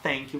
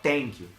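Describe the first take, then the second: First: Thank begins with a soft th sound. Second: Thank begins with a hard t sound. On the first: The speaker calls it right. "de vez falar thank you" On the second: The speaker calls it wrong. "som de T ... errado"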